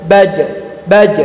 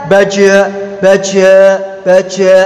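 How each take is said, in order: First: "Baj" with the final j stopped and held; held sound. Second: "baja" with the j let go into a trailing vowel; released sound. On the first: Teacher drilling suaranya tertahan, held sound. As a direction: check the j of "Baj" without a following vowel. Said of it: "suaranya tertahan". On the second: Teacher showing how it is tidak dibaca, released sound. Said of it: "nggak dilepas seperti itu". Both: Shown as a demonstration.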